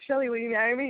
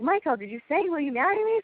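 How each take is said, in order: First: Said in the usual way. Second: High-pitched imitation of relatives checking, climbing at the end; prompting question. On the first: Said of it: "So he's like". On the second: Family to Michael who skipped the question, prompting. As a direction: nudge him with a rising question. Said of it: "and they're like".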